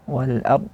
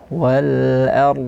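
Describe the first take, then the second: First: The final consonant is cut short, not drawn out. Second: The final consonant is drawn out along the tongue. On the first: The speaker calls it wrong. "sifat istitalah tidak ada" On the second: The speaker calls it right. "bunyinya adalah"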